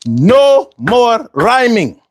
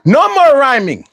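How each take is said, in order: First: Slow, drawn-out hype announcement; slow emphatic call-out. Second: Hype call-out. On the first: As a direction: drag it out to make the point. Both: Real, not acted. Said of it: "all right, all right".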